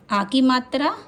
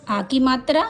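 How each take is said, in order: Both takes have the same delivery.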